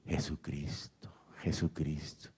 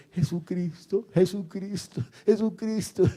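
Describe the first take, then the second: First: Hushed, drawn-out mock shout; retold cry of praise. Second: High, bouncy cry of praise; imitating excited praise. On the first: Preacher retells an old man's jumping praise, as a hushed cry. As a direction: shout it under your breath, slowly. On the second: Preacher mimics old man jumping like rubber, in a high excited cry. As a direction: mimic someone jumping about, pitch climbing. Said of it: "El hombre saltaba como un caucho ahí".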